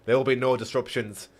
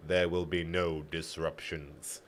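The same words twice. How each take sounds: First: Said in the usual way. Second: Slow, low and softened warning; spoken slowly. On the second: A narrator's reading. Guard warns the prisoners in halting trade tongue, speaking slowly. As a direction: say each word slowly, low and quiet. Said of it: "he spoke slowly".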